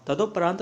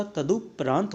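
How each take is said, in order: First: तदोपरांत with an o; incorrect form. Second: तदुपरांत with short u; short u in the middle of तदुपरांत; corrected form. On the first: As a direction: say तदोपरांत as "tado-paraant". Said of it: "तदोपरांत नहीं होता". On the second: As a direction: say तदुपरांत as "tadu-praant". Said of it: "तदुपरांत होता है". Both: Shown as a demonstration.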